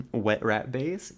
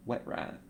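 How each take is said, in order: First: Said in the usual way. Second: "Wet rat" said voiceless and soft; odd breathy whisper. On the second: Shown as a demonstration. Streamer repeating her own odd phrase in a whisper. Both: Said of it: "I don't know why I said it like that".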